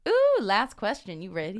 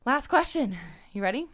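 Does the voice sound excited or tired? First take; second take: excited; tired. First: The voice sounds lively and excited. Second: The voice sounds flat and tired. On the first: The speaker calls it right. "You have to sound more excited" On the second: The speaker calls it wrong. "Why do you sound so tired?"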